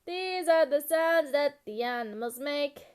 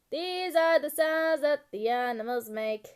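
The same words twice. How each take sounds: The two takes are said the same way.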